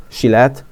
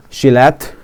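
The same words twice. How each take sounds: The two takes are said the same way.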